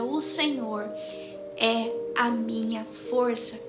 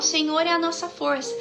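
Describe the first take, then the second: First: It is said slowly, feeling each word. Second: It is read plainly and casually.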